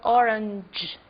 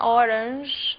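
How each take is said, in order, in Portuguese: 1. A consoante final é um dj duro, como em inglês. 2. A consoante final é um zh suave, parecido com o do português. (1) "É um j" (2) "acaba falando como se fosse em português"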